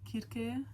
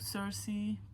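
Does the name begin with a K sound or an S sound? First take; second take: K sound; S sound. First: The name begins with a hard K sound. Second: The name begins with a soft S sound. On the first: The speaker calls it right. "for my sister, I need to say it like that" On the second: The speaker calls it wrong. "Every time I say it wrong"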